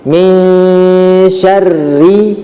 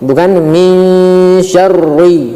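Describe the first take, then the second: First: The 'ri' sound is light and thin. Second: The 'ri' sound is heavy and dark. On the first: The speaker calls it right. "dibaca tipis, bukan tebal" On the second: The speaker calls it wrong. "ini adalah suatu kesalahan"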